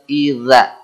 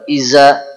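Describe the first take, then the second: First: The middle consonant is a th-like sound. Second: The middle consonant is a plain z sound. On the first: The speaker calls it right. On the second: The speaker calls it wrong.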